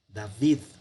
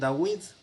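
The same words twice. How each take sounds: First: The middle consonant is pronounced as a V. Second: The middle consonant is pronounced as a W. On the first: "la Vav se pronuncia como V" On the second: "Hay quien lo pronuncia también David"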